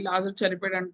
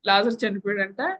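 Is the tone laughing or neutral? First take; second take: neutral; laughing. First: It is said in a plain, neutral voice. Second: It is said laughingly, in a cheerful voice. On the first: "normal normal voice లో చెప్పాం అనుకోండి" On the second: "ఇంకా నవ్వుతా చెప్పాం అనుకోండి"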